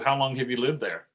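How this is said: It is asked in a flat, interrogating tone. The speaker is questioning like an interrogator. The speaker calls it wrong.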